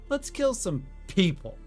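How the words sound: The stress falls on the word people. The speaker calls it right. "I should really put the emphasis on people"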